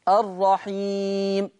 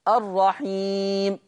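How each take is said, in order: Both takes have the same delivery.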